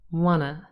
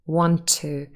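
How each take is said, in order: First: The T sound is dropped entirely. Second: The two words share one linked T sound. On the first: "link them even further and drop the T entirely" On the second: "That's really just one T sound"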